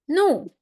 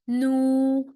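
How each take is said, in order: First: The pitch falls sharply from high. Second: The pitch stays high and level. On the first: "and the last tone" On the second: "and the first tone"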